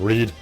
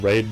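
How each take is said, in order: First: The vowel sounds like 'ee'. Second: The vowel sounds like 'ay'. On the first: The speaker calls it right. "I'm saying it correctly this time" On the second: The speaker calls it wrong. "I apologize for constantly saying Raid"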